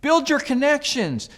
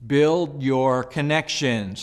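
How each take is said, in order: First: "Build" hit higher and louder, slowly; "Build your connections" pitched up and pushed, slow; emphatic repeat. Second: Slow, deliberate first statement of the point; slow, weighted delivery of "build your connections"; slow emphasis. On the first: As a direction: repeat it higher and punchier so it sticks. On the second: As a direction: lay it down slowly, word by word. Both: Shown as a demonstration. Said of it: "Let me say that one more time".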